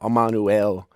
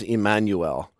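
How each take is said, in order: First: The name has an Aramaic-style pronunciation. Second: The name has an English-style pronunciation. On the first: "In Aramaic, it's closer to" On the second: "We pronounce it in English as"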